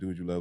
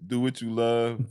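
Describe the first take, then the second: First: The phrase is said quickly. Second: The phrase is said slowly. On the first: "'Cause you say that fast" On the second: "say that slower"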